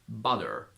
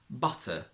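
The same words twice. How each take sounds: First: The middle t is a soft D-like flap. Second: The middle t is a clear, crisp T. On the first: "you can't always pronounce it as a D" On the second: "in British English, this problem wouldn't exist"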